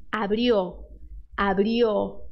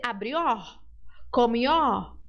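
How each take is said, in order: First: Abrió ending in a closed O; abrió, keep the final O closed. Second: Abrió and comió ending in an open O; wrong open-O abrió; open O mistake. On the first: Teacher modelling the correct closed O. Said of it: "deixar ele fechado". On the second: Teacher showing the tempting Brazilian open O. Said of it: "tentação de abrir". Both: Shown as a demonstration.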